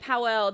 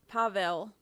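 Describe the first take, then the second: First: The name sounds like Powell, with a w sound. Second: The name sounds like Pavel, with a v sound. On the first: The speaker calls it wrong. "I've been saying it Powell" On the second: The speaker calls it right. "They're saying pa- Pavel"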